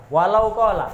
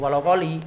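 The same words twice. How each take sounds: First: "kola" said clearly with a final a; correct pronunciation. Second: "koli" said with a final i, the wrong way; wrong pronunciation. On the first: Teacher gives the right reading, "kola" ending in a. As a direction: stress "Walau kola", ending on a. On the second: Teacher shows the wrong reading, "koli" ending in i. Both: Shown as a demonstration. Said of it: "Duduk walau koli".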